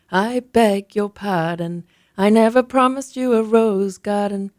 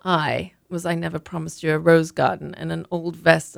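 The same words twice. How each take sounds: First: Slow sung line, louder. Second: Said in the usual way. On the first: Acted. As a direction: croon the old song slowly. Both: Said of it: "Mum started to sing".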